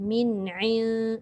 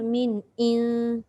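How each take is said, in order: First: The ain is pressed deep in the throat. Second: The ain is said as a light glottal stop. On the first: The speaker calls it right. "Tekankan ke tengah" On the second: The speaker calls it wrong. "ain tu dia jadi hamzah"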